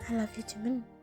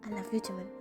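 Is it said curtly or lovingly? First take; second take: lovingly; curtly. First: It is said tenderly, with loving feeling. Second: It is said curtly, without feeling.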